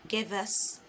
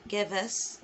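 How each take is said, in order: No difference in how they are said.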